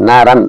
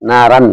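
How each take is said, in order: No difference in how they are said.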